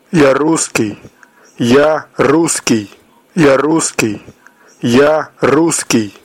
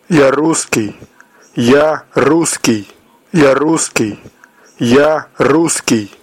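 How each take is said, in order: Both takes have the same delivery.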